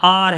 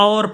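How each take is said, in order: First: The vowel is said like 'aa'. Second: The vowel is said like 'aw'. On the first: The speaker calls it right. "ये आर है" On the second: The speaker calls it wrong. "जिसी तरह और पढ़ते हैं"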